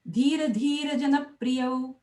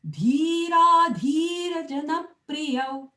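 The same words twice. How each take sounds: First: The long vowels are cut short. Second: The long vowels are held out fully. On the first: The speaker calls it wrong. "Don't go dhira dhira jana priyau. It's not right" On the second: The speaker calls it right. "always try and elongate the long ones"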